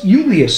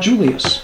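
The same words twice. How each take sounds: First: The name begins with a Y sound. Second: The name begins with a J sound. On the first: This is how the name was said in Latin. The speaker calls it right. "Classical Latin had no letter J. Caesar was Julius" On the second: This is the later English way of saying it. The speaker calls it wrong. "not Julius"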